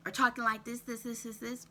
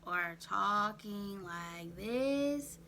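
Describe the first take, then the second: First: "this, this, this" chopped short, stumbling and breathless; choppy breathing speech. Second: Very slow, drawn-out "talking like this". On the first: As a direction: clip out "this, this, this" like you're short of air. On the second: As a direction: stretch each word out slowly and heavily. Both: Shown as a demonstration.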